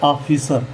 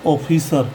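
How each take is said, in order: First: ऑफिसर as "AA-fisar", open aa; open AA reading. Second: ऑफिसर as "OH-fisar", round O; O reading. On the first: Teacher gives students the taught reading, ऑफिसर with open aa. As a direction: open the first vowel of ऑफिसर to aa. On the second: Teacher reads the next word for students, O-sounded ऑफिसर. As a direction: round the first vowel of ऑफिसर. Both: Shown as a demonstration. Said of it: "इसी प्रकार".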